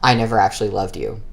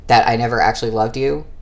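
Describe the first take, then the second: First: It is said as a falling statement. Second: It is said as a rising question.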